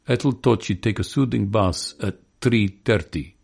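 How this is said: It is said in a Russian accent. "or a Russian says"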